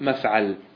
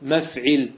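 First: The middle vowel is an 'a' sound. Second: The middle vowel is an 'i' sound. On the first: The speaker calls it wrong. "ولا تقول مفعل" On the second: The speaker calls it right. "مكسورة العين، يعني إيش تقول؟ مفعل"

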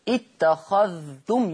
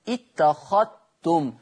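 First: The dh sound is clearly pronounced. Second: The dh sound merges into the t. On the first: "يظهر الذال" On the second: "يقرأ بالإدغام"

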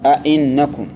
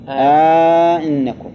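First: Both glottal stops are full, with no added long vowel. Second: A long 'a' is added and the second stop is softened. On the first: "تحقيق الهمزتين تقول" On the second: "وعلى التسهيل ... سهل"

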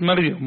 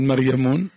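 First: The name ends without an added n sound. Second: The name ends with an added n sound. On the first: The speaker calls it right. "تقول نعم جاءت مريم" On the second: The speaker calls it wrong. "ما تقول مريمون"

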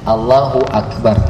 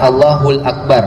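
First: Allahu and Akbar are said without an l. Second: An l sound links Allahu to Akbar. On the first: The speaker calls it right. "ucapan Allahu Akbar" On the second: The speaker calls it wrong. "Bukan Allahul Akbar ya"

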